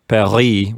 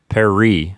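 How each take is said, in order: First: The R is a French throat sound. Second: The R is an English tongue sound. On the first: The speaker calls it right. "instead of Paris" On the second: The speaker calls it wrong. "they say the R's wrong, like in an English way"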